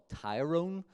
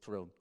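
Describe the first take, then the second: First: The first syllable sounds like 'tie'. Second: The first syllable sounds like 'tur'. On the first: The speaker calls it wrong. "it's not Tyrone" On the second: The speaker calls it right. "it is Tyrone"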